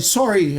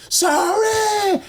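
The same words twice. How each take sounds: First: Said in the usual way. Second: Very high, drawn-out squealed sorry; mock scream. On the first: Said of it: "You're gonna scream sorry". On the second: Pinned bully forced to scream sorry, screaming. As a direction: imitate a beaten man screaming his apology. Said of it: "He starts to scream".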